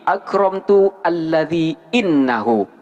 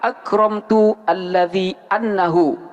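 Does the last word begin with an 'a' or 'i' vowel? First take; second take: i; a. First: The last word begins with an 'i' vowel. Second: The last word begins with an 'a' vowel. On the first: The speaker calls it right. "akan tetapi" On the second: The speaker calls it wrong. "tidak boleh dibaca"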